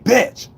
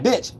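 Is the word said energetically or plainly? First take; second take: energetically; plainly. First: The word is said with extra energy and force. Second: The word is said plainly, without extra energy.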